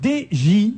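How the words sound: The letters are said with French letter names. "si vous le prononcez à la française"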